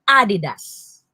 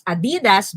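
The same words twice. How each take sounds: First: "Adidas" as AH-di-das; stress on first syllable. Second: "Adidas" as a-DEE-das; stress on second syllable. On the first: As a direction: hit the opening A of "Adidas". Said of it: "the accent is in the first syllable". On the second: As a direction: put the accent on the DI of "Adidas". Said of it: "you don't read it as". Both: Shown as a demonstration.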